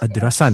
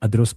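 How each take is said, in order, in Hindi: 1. शब्द के अंत में एक अतिरिक्त 'a' अक्षर है। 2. शब्द का आखिरी अक्षर बंद है। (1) "अदरसा नहीं" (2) "अदरस बोलें"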